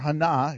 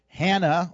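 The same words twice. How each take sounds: First: The name is said in a Hebrew-style way. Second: The name is said in a plain English way.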